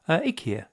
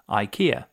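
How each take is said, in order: First: The name is said the newer advert way. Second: The name is said the usual British way. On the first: This is the pronunciation the brand now pushes. "they started pronouncing it IKEA" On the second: This is the long-familiar everyday pronunciation. "everybody in the UK has said IKEA"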